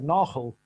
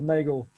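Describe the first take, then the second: First: The name is said the South African way. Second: The name is said the British way. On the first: "being originally South African ... I would pronounce that Nagel" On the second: "I'm gonna go with Nagel for the for the U K uh, for the U K audience"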